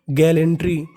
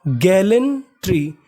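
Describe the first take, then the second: First: Said in the usual way. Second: gallantry drawn out syllable by syllable; slow, careful demo. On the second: Shown as a demonstration. Teacher slowly pronounces gallantry for students. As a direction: stretch out gallantry for the class. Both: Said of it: "तो meaning बनी".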